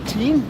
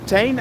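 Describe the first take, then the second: First: The name is said with an English 'ee' vowel. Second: The name is said with a Dutch vowel. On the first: "it's probably Teen because I see you're from New Zealand" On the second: "I would almost say it in a Dutch way"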